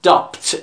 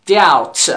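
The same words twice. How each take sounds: First: Doubt wrongly said "dabt", with a sounded B; doubt mispronounced with B. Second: Doubt said "dowt", with no B; doubt, silent B. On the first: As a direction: put an audible b before the t in doubt. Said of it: "این غلطه". (doubt با تلفظ غلط «دابت») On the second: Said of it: "و بی هم سایلنت". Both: Shown as a demonstration.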